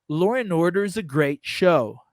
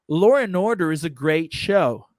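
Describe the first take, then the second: Both takes have the same delivery.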